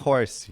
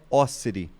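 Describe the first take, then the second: First: The name is said like English 'horse'. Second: The name is said with three syllables, 'Ossiri'. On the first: The speaker calls it wrong. "muitos me chamam de é, Orse, Ro, até Horse" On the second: The speaker calls it right. "a pronúncia correta é Ossiri"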